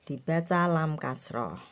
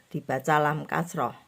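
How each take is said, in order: No difference in how they are said.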